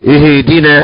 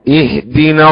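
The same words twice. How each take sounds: First: A vowel is bent toward an e sound. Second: The vowels are said plain, without bending. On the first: The speaker calls it wrong. "كما يقول غير العرب اهدنا أو ايه مثلا بالإمالة" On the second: The speaker calls it right. "لا اهدنا الصراط المستقيم هكذا"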